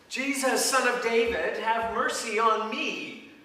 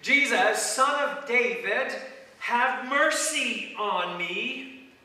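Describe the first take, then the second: First: The stress is on "me". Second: The stress is on "mercy".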